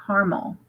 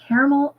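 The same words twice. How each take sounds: First: Caramel said as CAR-mul; caramel squeezed to two syllables, CAR-mul; caramel as carmel. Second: Caramel said as CARE-uh-mel; caramel in three syllables, CARE-uh-mel; caramel, full middle syllable. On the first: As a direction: pronounce caramel with "car" up front. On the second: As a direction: pronounce caramel with "care" up front. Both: Shown as a demonstration. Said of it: "Do you say caramel or caramel?".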